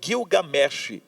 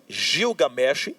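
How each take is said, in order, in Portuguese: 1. O nome começa com som de G. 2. O nome começa com som de J. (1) "que aí o J transforma-se num G" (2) "daí vem o som dele do Y como J"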